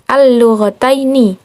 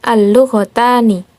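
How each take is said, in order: First: The ending has an 'ai' sound before n. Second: The ending has a plain 'a' before n. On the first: The speaker calls it right. "ditandai dengan ya" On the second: The speaker calls it wrong.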